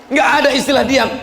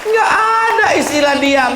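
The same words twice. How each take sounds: First: Fast, firm restatement with ada stressed; quicker repeat. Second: High, loud insistence on ada; emphatic shout. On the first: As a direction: rattle it off again, ada stressed. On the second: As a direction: declare it hard to the crowd, ada punched. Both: Real, not acted.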